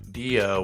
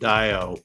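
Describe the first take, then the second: First: The first vowel sounds like 'ee'. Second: The first vowel sounds like 'eye'. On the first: "with the E" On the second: "with the I"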